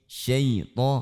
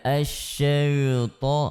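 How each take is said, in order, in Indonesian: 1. Bunyi 'ya' diucapkan tipis dan ringan. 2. Bunyi 'ya' diucapkan tebal dan berat. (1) "Tetap tipis" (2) "tanpa kita sengaja menebalkan ya-nya"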